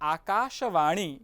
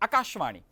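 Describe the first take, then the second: First: The sh is followed by a short a vowel. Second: The sh is said with no vowel after it. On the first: The speaker calls it right. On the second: The speaker calls it wrong.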